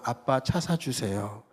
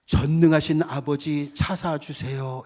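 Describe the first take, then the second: First: Put-on childlike plea. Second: Formal prayer. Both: Shown as a demonstration. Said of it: "이거 틀리잖아요".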